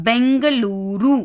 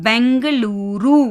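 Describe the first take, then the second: No difference in how they are said.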